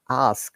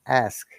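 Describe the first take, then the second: First: The vowel is a long open ah sound. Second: The vowel is a flatter, fronted a sound. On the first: "like we use the R sound, like ask" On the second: "they said ask"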